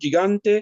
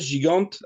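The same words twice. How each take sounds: First: The name is pronounced the Italian way. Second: The name is pronounced the French way. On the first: "à l'italienne" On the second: "À la française"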